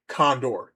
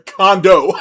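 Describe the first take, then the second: First: Condor said instead of condo, wrong word; slip of the tongue. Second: Condo said loud through laughter, corrected; corrected word. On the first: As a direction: mistakenly say Condor. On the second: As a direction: blurt out condo while laughing. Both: Real, not acted. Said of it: "Sorry, condo".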